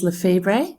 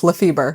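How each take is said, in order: First: Lefebvre said as "luh-FEE-bray", ending on "bray"; slightly off pronunciation. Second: The name owner's own Lefebvre, luh-FEE-ber; corrected pronunciation. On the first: Real, not acted. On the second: Shown as a demonstration. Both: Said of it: "Very close".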